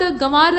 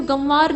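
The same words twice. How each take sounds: First: गंवार with a full m before व; wrong nasal form. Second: गंवार with a nasal vowel, no m; correct nasalised form. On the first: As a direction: say गंवार as gamvar. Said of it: "गंवार नहीं होता है". (गलत गंवार, म की ध्वनि के साथ) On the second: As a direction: say गंवार as gãvar. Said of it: "बल्कि गंवार होता है". (सही गंवार, चंद्रबिंदु वाली ध्वनि) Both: Shown as a demonstration.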